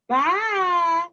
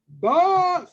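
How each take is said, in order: First: It is said in a middle-sized voice. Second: It is said in a great big voice. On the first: "in her middle sized voice" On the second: "in his great big voice"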